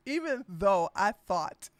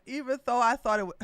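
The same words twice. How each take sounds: First: Said in the usual way. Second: A light imitation of Herschel, fast; lightly voiced Herschel, rushed; a hint of Herschel, quick; Herschel Walker voice. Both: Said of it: "let me stop talking like him".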